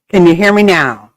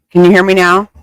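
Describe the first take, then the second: First: Laughing through the question. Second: Calling out loudly into the mic; loud mic check. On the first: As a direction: giggle while asking again. Repeating mic check, laughing. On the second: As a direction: raise your voice so they hear. Mic check, others can't hear. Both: Real, not acted.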